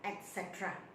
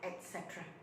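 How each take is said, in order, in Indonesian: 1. Ini diucapkan dengan aksen Inggris. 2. Ini diucapkan dengan aksen Inggris.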